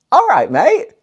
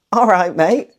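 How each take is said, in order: First: All right, mate called out higher and louder; cheery greeting. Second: Said in the usual way. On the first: Shown as a demonstration. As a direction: call "All right, mate" brightly across the pub, much higher. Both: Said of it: "Mate just means friend".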